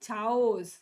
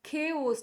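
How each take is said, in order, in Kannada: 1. ಈ ಪದ ch ಶಬ್ದದಿಂದ ಶುರುವಾಗುತ್ತೆ. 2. ಈ ಪದ k ಶಬ್ದದಿಂದ ಶುರುವಾಗುತ್ತೆ. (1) "ನಾಟ್ ಚಾಓಸ್" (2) "ದಿಸ್ ಇಸ್ ಖೇಓಸ್"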